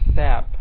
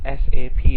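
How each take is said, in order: First: The name is said as one word. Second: The name is spelled out letter by letter. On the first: The speaker calls it wrong. "not S A P. that's very unprofessional and very wrong" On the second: The speaker calls it right. "should be pronounced as"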